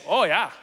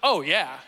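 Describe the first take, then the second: First: Rounded Northern "Oh, yeah"; faked Northern accent. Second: Said in the usual way. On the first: Shown as a demonstration. Seventh grader trying to fit in up North, faked Northern accent. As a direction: put on a Wisconsin accent. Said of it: "I just started faking a Northern accent". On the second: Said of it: "instead of saying something like".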